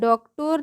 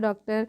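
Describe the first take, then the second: First: The last syllable has an 'oh' vowel. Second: The last syllable has an 'ah' vowel. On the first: The speaker calls it wrong. "डॉक्टर नहीं बोलते हैं" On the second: The speaker calls it right. "यहाँ पर भी ओ को आ से पढ़ते हैं"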